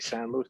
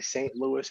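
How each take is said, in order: First: The first word sounds like 'san'. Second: The first word sounds like English 'saint'. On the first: The speaker calls it right. "It's a San Luis" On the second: The speaker calls it wrong. "It's not a Saint Louis"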